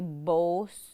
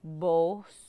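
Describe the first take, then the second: The two takes are said the same way.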